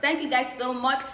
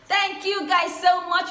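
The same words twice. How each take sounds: First: Said in the usual way. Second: Effusive thanks. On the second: Real, not acted. Gushing thanks to subscribers.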